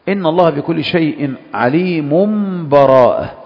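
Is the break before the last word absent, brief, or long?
absent. عليم runs straight into براءة with no stop. The verses are joined in one flow. "الوجه الثالث الوصل"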